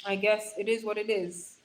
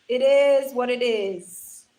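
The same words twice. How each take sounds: First: Said in the usual way. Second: "It is what it is" slow, loud and drawn out; emphatic repeat. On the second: Real, not acted. Streamer repeating to viewers, "It is what it is" slow and emphatic. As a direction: stretch each word of "It is what it is".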